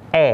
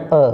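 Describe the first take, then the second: First: "e" as open eh; open, front "e"; e with circumflex. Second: "e" as schwa uh; central, schwa "e"; e without circumflex. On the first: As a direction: say "e" as a clear "eh". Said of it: "ada rambutnya dibacanya". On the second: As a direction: say "e" as a relaxed "uh". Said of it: "Kalau nggak ada rambutnya". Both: Shown as a demonstration.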